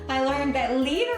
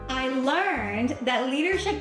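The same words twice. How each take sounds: First: The word leadership is emphasized and slowed. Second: The word learned is emphasized and slowed. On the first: "Second time, I'm going to emphasize leadership" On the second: "The first time, I'm going to emphasize learning"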